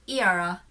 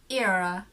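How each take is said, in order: The two takes are said the same way.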